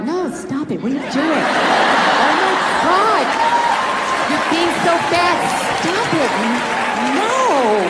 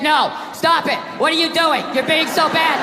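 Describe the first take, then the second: First: Drawn-out mock-seductive protest; hammed-up playful pleasure, words stretched out; coy, unconvincing no. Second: Matter-of-fact courtroom reading; straight, unsexy recital to a judge; bad read. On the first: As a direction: say no while clearly meaning yes. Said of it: "that's not a fucking no". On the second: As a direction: read the protest out with none of the playfulness. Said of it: "you get a bad read".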